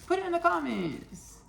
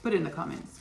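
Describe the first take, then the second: First: Much higher, falling sing-song put it in the comments; high sing-song repeat. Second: Said in the usual way. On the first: Shown as a demonstration. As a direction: toss it up high like a playful nudge.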